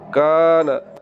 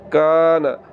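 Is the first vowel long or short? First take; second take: long; long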